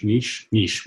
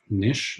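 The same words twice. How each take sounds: First: "niche" with a long ee; niche as "neesh". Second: "niche" with a short i; niche as "nish". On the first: Guest settles on his way to say it, "niche" as neesh. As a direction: say "niche" to rhyme with leash. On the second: Guest tries out the word, "niche" as short nish. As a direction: say "niche" to rhyme with dish. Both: Shown as a demonstration. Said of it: "We say niche".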